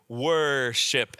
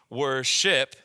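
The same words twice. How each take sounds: First: The stress is on the first syllable. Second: The stress is on the second syllable. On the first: The speaker calls it right. "this would be the wor syllable" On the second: The speaker calls it wrong. "you don't say it. That doesn't have that emphasis"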